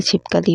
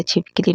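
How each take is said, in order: First: छिपकली said as "chipkali"; "chip-ka-li" for छिपकली; correct pronunciation. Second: छिपकली said as "chipkili"; "chip-ki-li" for छिपकली; wrong pronunciation. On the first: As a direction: say छिपकली with a short a after the k. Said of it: "होता है". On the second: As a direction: say छिपकली with an i after the k. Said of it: "नहीं होता". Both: Shown as a demonstration.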